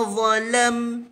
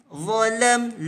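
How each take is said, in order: No difference in how they are said.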